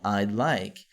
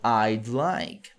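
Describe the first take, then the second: First: The first two words are contracted into one. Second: The first two words are contracted into one.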